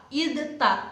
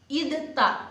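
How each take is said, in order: The two takes are said the same way.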